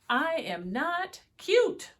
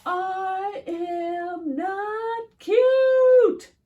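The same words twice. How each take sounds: First: Defiant wolf. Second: Very high, loud, slowly sung out; sung, belt it like a wailing song; sung protest. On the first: Wolf insists in story. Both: Acted.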